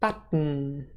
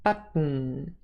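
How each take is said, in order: The two takes are said the same way.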